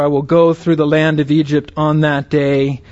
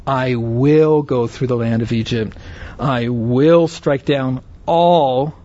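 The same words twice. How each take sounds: First: Said in the usual way. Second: "will" drawn out and weighted each time; stress on "will". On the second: Shown as a demonstration. Preacher shows the congregation God's resolve, stressing "will". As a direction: lean firmly on the word "will". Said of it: "note this emphasis on the word will".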